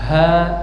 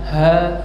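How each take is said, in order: First: The h sound is plain, with little breath. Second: The h sound is breathy, with air flowing out. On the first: The speaker calls it wrong. "bukan ha" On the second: The speaker calls it right. "keluar nafasnya"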